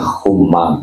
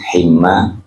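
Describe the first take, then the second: First: The first vowel is an u sound. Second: The first vowel is an i sound. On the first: "Dibaca humma boleh" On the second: "dibaca himma juga tidak apa-apa"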